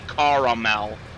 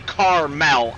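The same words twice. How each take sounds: First: The middle vowel is sounded, giving three syllables. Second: The middle vowel is dropped, giving two syllables. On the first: The speaker calls it right. "I say caramel" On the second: The speaker calls it wrong. "I don't say caramel"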